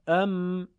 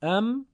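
First: Sung, «ام» held long on an even note; sung, joined, melodic reading. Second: Short «ام», higher with a rising tune; segmented reading. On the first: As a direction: chant «ام», lingering on the m. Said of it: "آهنگین بخونید کلمات رو". (sung, «ام» آهنگین و کشیده) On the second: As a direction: say «ام» briefly as a single lifted syllable. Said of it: "به صورت تفکیک شده، یعنی همون بخش بخش". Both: Shown as a demonstration.

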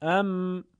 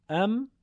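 First: Sung, «ام» held long on an even note; sung, whole-word reading. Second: Brief «ام», higher and rising; segmented reading. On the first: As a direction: chant «ام» with a lingering m. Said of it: "هم کلمه خوانیش و پیوسته خوانیش". (sung, «ام» پیوسته و کشیده) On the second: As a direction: lift «ام» as one short syllable. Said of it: "هم بخش خوانیش". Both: Shown as a demonstration.

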